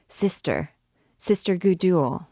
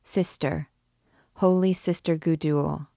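First: Raising her voice. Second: Gentler, affectionate. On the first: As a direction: voice rising with each call. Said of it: "raising her voice each time". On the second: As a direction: coax her gently, with affection. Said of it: "in a gentler and more affectionate tone". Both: A narrator's reading.

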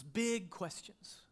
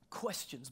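First: Big stretched slowly and leaned on; stress on big. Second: Said in the usual way. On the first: Shown as a demonstration. Pastor stressing big to his congregation, slow. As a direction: lean hard on big, drawn out.

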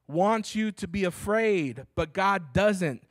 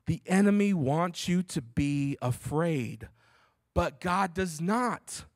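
First: Slow, higher, each word leaned on; slow emphatic preaching. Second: Slow, with "not" landed hard; slow it down and hit "not"; stress on NOT. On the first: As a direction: drive it home slowly. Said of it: "repeated for emphasis". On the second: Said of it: "emphasizing this point so much". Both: Shown as a demonstration.

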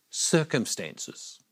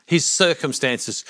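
First: Slow, whispered reveal; hushed answer. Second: Said in the usual way. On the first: Shown as a demonstration. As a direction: whisper it slowly, letting the word fall. Hushed answer to own question.

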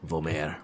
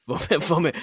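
First: Mock French accent, low and drawn. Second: Mock French accent, stumbling then laughing. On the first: Joking to teammate, name said in mock French accent. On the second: Retrying the teammate's name in mock French accent. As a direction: giggle through a fake French name. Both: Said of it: "I just said Vomer's name in a French accent".

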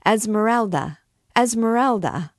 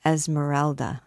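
First: Crowd shout, higher, louder, falling. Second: The name escapes him in shock; astounded. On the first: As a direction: hail her name across the court. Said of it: "a shout rose from the thieves". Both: A narrator's reading.

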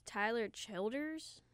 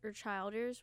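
First: Put-on "Childers" with a short i, like "children". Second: Put-on "Childers" with a long i, like "child". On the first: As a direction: say "Childers" as CHIL-ders. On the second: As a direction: say "Childers" as CHILE-ders. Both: Shown as a demonstration.

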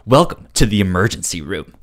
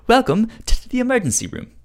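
First: Game show host. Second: Higher, bouncy game show host welcome; cheeky British game show host. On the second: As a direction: sell it like a cheeky quiz host. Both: Pretend. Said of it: "cheeky British game show".

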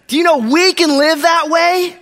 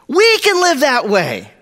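First: Raised, drawn-out "we can live that way" ending high, as a question; high, slow, searching "we can live that way"; rousing question. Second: "We can live that way" starting high on "We" and falling steadily; slow, falling, settled "We can live that way"; emphatic assertion. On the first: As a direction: ask "we can live that way" slowly, pitched up, to challenge the crowd. Challenges congregation, then asserts it. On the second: Repeats question as firm statement. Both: Real, not acted.

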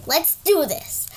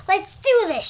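First: Slow drowsy agreement; sleepy. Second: Eager louder call; girl yelling to her snoring friend. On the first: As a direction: say it half awake and slow. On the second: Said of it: "she yelled". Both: Acted.

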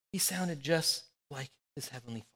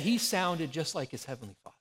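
First: Soft repeat. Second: Said in the usual way. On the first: Shown as a demonstration. Pastor repeating the point to congregation, softly. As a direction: let it land gently.

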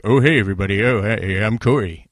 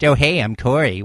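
First: Lightly voiced laid-back greeting, a bit louder; a hint of Corey saying hi to everybody; original Corey impression. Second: Closer to Corey's own tone, said brighter; current Corey impression. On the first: Host doing his old Corey impression, lightly voiced and a bit louder. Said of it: "My original Corey impression was like". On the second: Host doing his current Corey impression, lightly voiced. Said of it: "And now it's".

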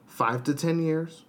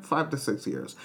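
First: Said in the usual way. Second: Five said with a falling hit; stress on five. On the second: Shown as a demonstration. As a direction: punch five in five to six years. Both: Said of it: "not five to ten years".

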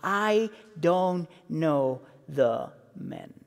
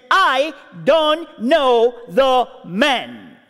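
First: Softer, slow, drawn-out oath; sworn denial. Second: Slow, tight, drawn-out denial; tense denial. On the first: Peter swearing to the bystanders, softer and slow. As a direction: grind it out low and slow. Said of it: "he swore to them". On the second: Peter denying Jesus a second time, slow and tense. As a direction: drag each word out under strain. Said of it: "This is no longer a casual conversation". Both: Retold or imitated.

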